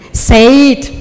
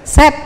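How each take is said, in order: First: The vowel is a long 'ay' sound. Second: The vowel is a short 'e' sound. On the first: The speaker calls it wrong. "Masa Said?" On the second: The speaker calls it right. "Udah set aja, jangan Said"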